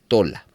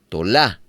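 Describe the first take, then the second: First: The stress is on the first syllable. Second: The stress is on the last syllable. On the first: "no aparece con acento en la A, de tal manera que se pronuncia Tola" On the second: "aparece con acento en la A, entonces se pronunciaría Tolá"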